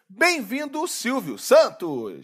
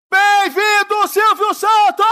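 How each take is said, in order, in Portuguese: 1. A saudação é dita fraca, com pouca energia. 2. A saudação é dita em voz alta, com mais energia. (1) "Esse bem-vindo não tá com nada, tá fraco" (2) "diga mais alto!"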